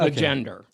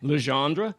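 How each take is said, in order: First: The name ends in an American-sounding der. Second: The name ends in a French-like dre sound. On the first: This is how the film's characters say it. "very American pronunciation" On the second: This is probably the name's original form. "what I think probably is Legendre"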